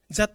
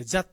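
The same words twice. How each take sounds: First: That said as "za-tto"; katakana final vowel. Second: That cut short to "za"; dropped final consonant. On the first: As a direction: add a full "to" to "that". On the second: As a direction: say "that" with the t swallowed. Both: Shown as a demonstration. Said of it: "じゃなくて".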